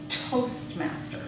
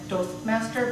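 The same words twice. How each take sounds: First: The first T has a strong puff of air. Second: The first T has only a weak puff of air. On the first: The speaker calls it right. "but it should be Toastmaster" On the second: The speaker calls it wrong. "less aspirated than it could have been. So more like Toastmaster"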